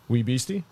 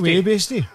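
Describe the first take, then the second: First: It is said in the speaker's normal voice. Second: It is said in a put-on accent. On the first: The speaker calls it wrong. "I don't think that's how you pronounce that" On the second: The speaker calls it right. "you pulled out your Duke voice"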